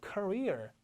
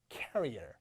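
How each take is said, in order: First: Career as kuh-REER; weak first syllable, strong REER in Career; stress on second syllable. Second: Career as carrier, KA-ree-er, low; stress on first syllable. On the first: Teacher leading students' repeat, Career as kuh-REER. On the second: Teacher leading students' repeat, career said as KA-ree-er. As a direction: stress KA in career and let it fall. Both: Shown as a demonstration. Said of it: "다 같이 시작".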